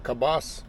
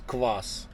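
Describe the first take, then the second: First: It starts with k, a vowel, then b. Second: It starts with k directly followed by v. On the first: The speaker calls it wrong. "You're gonna say kabas. It's not kabas" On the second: The speaker calls it right. "It's kvass"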